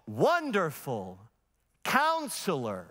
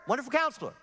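First: "Wonderful, Counselor" split by a clear pause; "Wonderful" and "Counselor" as two separate titles; comma between words. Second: "Wonderful Counselor" run together with no pause; no comma in "Wonderful Counselor", corrective and quick; said as one word. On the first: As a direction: say "Wonderful", stop, then a slow "Counselor". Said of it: "Then don't put a comma there". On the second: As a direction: join "Wonderful Counselor" into a single title, pitched higher. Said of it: "It's one word". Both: Retold or imitated.

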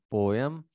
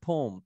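First: "पोएम" as two syllables, po-em; UK pronunciation. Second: "पोम" as one syllable, pome; US pronunciation. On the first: Teacher showing students the UK "पोएम", po-em. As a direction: say "पोएम" the British way, po-em. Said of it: "ये UK pronunciation याद रखें". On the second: Teacher showing students the US "पोम", one syllable. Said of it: "US pronunciation है". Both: Shown as a demonstration.

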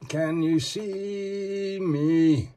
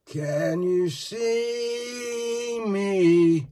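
First: High, drawn-out spooky voice, each word stretched; slow eerie call. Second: Even more stretched, higher spooky call; slower, higher eerie call. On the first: Showing off the figure, he calls out in a slow eerie voice. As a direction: call out slowly like a ghost in the dark. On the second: Calling to the figure a second time, a slower, higher eerie voice. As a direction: drag it out further, higher, teasing. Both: Pretend.

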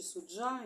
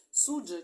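First: Суджа with stress on the final syllable, суд-ЖА; last-syllable stress. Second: Суджа with stress on the first syllable, СУД-жа. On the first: Reader unsure of the name, offering суджа stressed on final ЖА. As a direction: hit ЖА at the end of суджа. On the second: Reader checking where the stress falls, Суджа stressed on СУД. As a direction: hit СУД in Суджа, let -жа drop. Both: Shown as a demonstration. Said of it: "правильно я там ударення ставлю".

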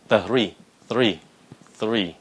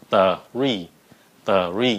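First: THREE blended quicker each time into one syllable; speeding up. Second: THREE broken into TUH-REE; split, deliberate. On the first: Teacher urging learners faster, tightening THREE. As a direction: squeeze th and ree together in THREE. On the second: Teacher building up thr for learners, split THREE. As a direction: pull THREE apart into two sounds, th then ree. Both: Shown as a demonstration. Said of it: "Nhanh lên".

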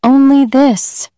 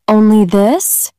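First: "Only this" pitched higher, then falling to a firm stop; high start, falling "Only this"; calm answer. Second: "Only this?" as a slow rising question; asking in surprise. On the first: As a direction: settle it, "Only this," with a slow final fall. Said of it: "she answered". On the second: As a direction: ask "Only this?" with a lift at the end, unsure. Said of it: "cried the young fisherman". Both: A narrator's reading.

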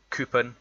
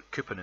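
First: "coupon" said as KOO-pun in an Edinburgh accent; Edinburgh accent word. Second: Said in the usual way. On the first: Shown as a demonstration. Reading a word list to show viewers his accent, Edinburgh coupon. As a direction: reads "coupon" out clearly, Edinburgh style. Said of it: "the words that we've got". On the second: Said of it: "we also say coupon".

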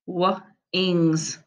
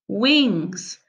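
First: "W-, ings" with the W split off; sounded out. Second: Said in the usual way. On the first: Shown as a demonstration. Teacher to pupils: "W-, ings" in two parts. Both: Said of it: "I'm gonna sound them out".

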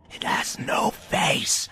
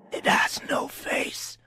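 First: Higher, louder, slow unnerved whisper. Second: Slow, airless creature whisper; dark whisper behind you. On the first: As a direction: let the fear creep in. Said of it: "louder than before and slightly more unnerved". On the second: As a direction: whisper it to yourself, slowly. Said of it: "the thing whispered to itself". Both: A narrator's reading.

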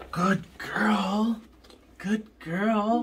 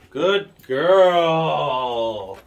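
First: Whispered. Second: Said in the usual way. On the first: Shown as a demonstration. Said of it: "Good girl (plain take before)". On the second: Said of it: "Good girl (whispered retake)".

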